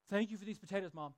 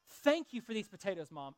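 First: It is said sullenly, without cheer. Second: It is said cheerfully, with a smile.

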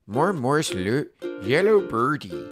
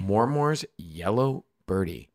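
First: It is read in a put-on Swedish accent. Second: It is read in the reader's normal accent.

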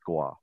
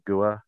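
First: The name is said with one syllable. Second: The name is said with two syllables. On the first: The speaker calls it right. "It's one syllable" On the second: The speaker calls it wrong. "instead of gua"

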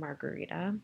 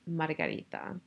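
First: The name is said in a plain, casual way. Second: The name is said forcefully with punchy sounds. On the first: The speaker calls it wrong. "my mom would be so, so disappointed if she listened to this" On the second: The speaker calls it right. "say it right. Which is supposed to be Margarita. Ooh! that packs a punch"

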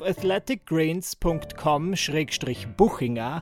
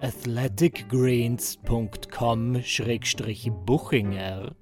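First: It is said casually at normal speed. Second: It is said slowly and very clearly.

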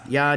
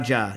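First: The syllable begins with a 'y' sound. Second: The syllable begins with a 'j' sound. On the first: "Ja or ya?" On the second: "Ja or ya?"

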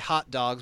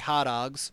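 First: It is said in a standard, neutral accent. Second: It is said in a strong local regional accent. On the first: This is how outsiders say it. "we don't say hot dogs" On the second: This is how locals say it. "we say hot dogs"

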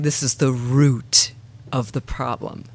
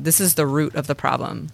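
First: The word 'root' is said with strong emphasis. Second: The word 'root' is said flatly, without emphasis.

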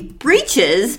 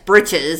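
First: The first vowel is long, as in 'each'. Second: The first vowel is short, as in 'itch'. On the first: "I feel like it should be breeches the way it's spelled" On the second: "breeches is B-R-I-T-C-H-E-S, breeches"

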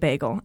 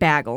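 First: The word is said in a standard local accent. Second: The word is said with a Wisconsin accent. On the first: This is how people here usually say it. "instead of bagel" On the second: This is how someone from Wisconsin says it. "He said bagel"

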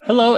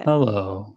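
First: It is said strongly and brightly. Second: It is said in a sad, somber way.

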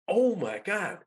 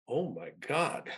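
First: It is said with joyful excitement. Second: It is said with worry and dread. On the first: The news is thrilling. "there were two experiences I had. One was" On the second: The cost is frightening. "Because you know, it was a fair chunk of change"

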